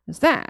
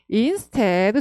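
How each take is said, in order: First: The first syllable is reduced; the second is strong. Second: The first syllable is said fully and clearly. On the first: The speaker calls it right. "instead에 확 들어가셔야 돼요" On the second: The speaker calls it wrong. "instead 절대 아니고요"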